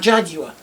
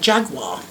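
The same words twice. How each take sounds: First: It is said with a British pronunciation. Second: It is said with an American pronunciation.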